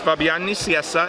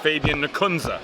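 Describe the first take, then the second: First: The name is pronounced the Spanish way. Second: The name is pronounced the American way. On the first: "In Spanish" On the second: "And in American, apparently"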